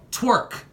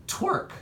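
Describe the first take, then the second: First: Clean retake call. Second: Voice cracking. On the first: Acted. Redoing the call for viewers after the crack, a loud clean announcement. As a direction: call "Twerk." again higher and louder, no crack this time. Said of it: "My voice just cracked. I'm sorry". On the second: Real, not acted. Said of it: "My voice just cracked".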